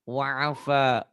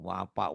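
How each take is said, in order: First: The consonant is said as an f sound. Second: The consonant is said as a p sound. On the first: The speaker calls it right. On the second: The speaker calls it wrong. "banyak orang Sundanya nih"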